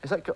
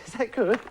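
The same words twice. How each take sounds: First: Said in the usual way. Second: Asks with a laugh; laughing question. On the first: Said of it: "what are you laughing at". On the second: Acted. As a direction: giggle through the question.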